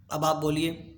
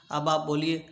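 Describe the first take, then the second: No difference in how they are said.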